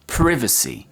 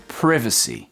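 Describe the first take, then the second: No difference in how they are said.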